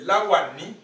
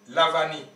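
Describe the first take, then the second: First: The second consonant is a W sound. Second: The second consonant is a V sound. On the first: The speaker calls it right. "Alors qu'en réalité, c'est Lawani" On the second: The speaker calls it wrong. "La France prononce V"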